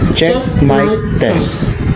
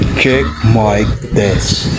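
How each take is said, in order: First: The voice is shifted to sound female. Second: The voice is shifted very low and deep. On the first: "Male to female" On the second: "The devil's voice"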